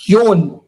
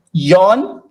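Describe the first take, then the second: First: "yon" with a rounded long o, falling; correct long o. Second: "yon" with an open aw-like vowel; wrong open vowel. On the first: Teacher correcting learners on number four, "yon" with rounded o. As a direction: say "yon" with a pure closed o. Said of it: "it's yon". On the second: Teacher warning learners off the wrong "yon", open-vowelled mispronunciation. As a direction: say "yon" too open, like "yawn". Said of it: "it's not yon". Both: Shown as a demonstration.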